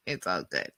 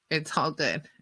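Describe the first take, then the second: First: It's all good dropped low and soft; low aside. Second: Said in the usual way. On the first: Shown as a demonstration. Teller repeating to herself, low and soft. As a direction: mutter it under your breath low.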